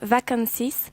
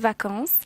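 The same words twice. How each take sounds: First: The final S is pronounced aloud. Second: The final S is left silent. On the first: The speaker calls it wrong. "instead of saying" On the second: The speaker calls it right. "you have to say vacances. In French, we don't say the final S"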